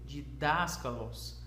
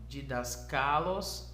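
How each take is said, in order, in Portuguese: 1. O acento cai na sílaba 'das'. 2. O acento cai em uma sílaba diferente de 'das'. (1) "tem um acento nesse primeiro alfa. E então você deve ler didáskalos" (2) "não"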